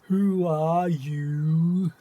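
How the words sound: It is said in an obnoxious, mocking voice.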